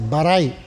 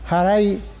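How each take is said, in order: First: The word begins with a b sound. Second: The word begins with an h sound. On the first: The word stands in second position. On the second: The word stands in first position.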